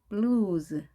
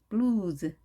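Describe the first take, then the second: Both takes have the same delivery.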